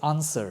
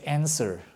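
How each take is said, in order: First: It is said with a British accent. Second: It is said with an American accent. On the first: "in the U K, you will say answer" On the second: "In the United States, you probably say answer"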